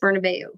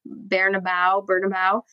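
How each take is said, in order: First: It is said with a Spanish-style pronunciation. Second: It is said with an American English pronunciation. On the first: This is how the name is really said. The speaker calls it right. "I think it's Bernabeu" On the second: This is how people in the U.S. say it. The speaker calls it wrong. "Everybody in the U.S. at least is Bernabeu"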